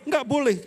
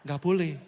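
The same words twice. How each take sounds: First: Nggak boleh said high and loud as a pious rebuke; hammed-up scolding, higher and louder; mock stern ban. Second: Said in the usual way. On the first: Judgmental friend forbidding a member's disappointment, mock stern and loud. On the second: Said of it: "tengking dalam nama Yesus".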